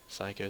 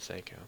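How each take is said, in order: First: The first syllable sounds like 'sigh'. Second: The first syllable sounds like 'say'. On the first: This is how the speaker first read the name. "Before I thought it was Psycho" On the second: This is how the anime says the name. "the anime pronounces it Seiko"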